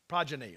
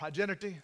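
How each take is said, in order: First: The word is said with three syllables. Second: The word is said with four syllables. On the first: The speaker calls it right. "that's it" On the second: The speaker calls it wrong. "is that the way you say it?"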